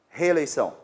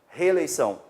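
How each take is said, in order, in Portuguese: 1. Os dois sons e no início se fundem em um só. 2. Os dois sons e no início se fundem em um só.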